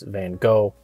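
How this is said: The name is said the American way. It is how Americans usually say the name. "the American way to say it"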